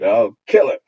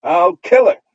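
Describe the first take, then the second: First: Put-on loud little girl's threat; childish cry. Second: Put-on high, loud little girl's threat; childish cry. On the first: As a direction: shout it with a raised fist. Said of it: "raised her fist and cried". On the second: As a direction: shriek it like a furious little girl. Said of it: "she would cry".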